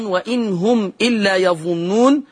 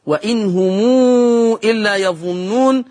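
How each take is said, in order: First: Said in the usual way. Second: وإن هم read "wa-in humuu", long ū before إلا; lengthened mim. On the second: Shown as a demonstration. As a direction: draw out the م of هم into a long ū. (وإن هم بصلة الميم ومدّ مشبع) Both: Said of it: "بصلة ميم".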